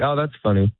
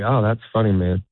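First: It is said a little quicker. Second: It is said slowly and warmly.

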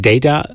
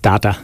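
First: It is said the American way. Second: It is said the Irish way.

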